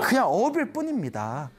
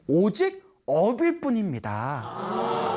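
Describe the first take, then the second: First: Said in the usual way. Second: 업일 drawn out very slowly with a rise, each syllable weighed; slow down and lean on 업일 like a famous saying; weighty pronouncement. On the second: Acted. Novice solemnly telling his master 업일 뿐입니다, very slow. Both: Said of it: "다음과 같은 유명한 말을 남깁니다".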